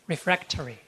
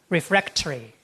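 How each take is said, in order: First: It is said in a British accent. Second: The same.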